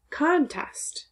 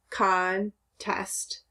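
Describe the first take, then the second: First: Contest whispered, no voice, high start; whispered repeat. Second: Said in the usual way. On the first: Shown as a demonstration. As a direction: breathe the word Contest out.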